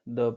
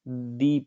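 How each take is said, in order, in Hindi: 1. स्वर छोटा और कमज़ोर है। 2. स्वर पूरा और बलयुक्त है। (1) "जो दी है उसको हम द पढ़ेंगे" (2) "दी पढ़ेंगे, इस प्रकार से हम स्ट्रेस देते हैं"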